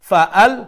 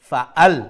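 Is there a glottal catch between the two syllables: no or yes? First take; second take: yes; yes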